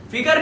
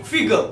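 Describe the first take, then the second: First: "फिगर" ending in a clear r; wrong pronunciation. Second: "फिगर" as fig-uh, no final r; correct pronunciation. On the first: Teacher rejects it for learners, r-ending "फिगर". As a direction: sound the last r of "फिगर". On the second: Teacher corrects learners, r-less "फिगर". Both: Shown as a demonstration. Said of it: "फिगर नहीं".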